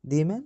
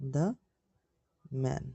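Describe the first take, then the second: First: 'The' is pronounced like 'thee'. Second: 'The' is pronounced like 'thuh'. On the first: The speaker calls it wrong. "তাহলে হবে দি man না দা man" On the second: The speaker calls it right. "এটা হবে দা man"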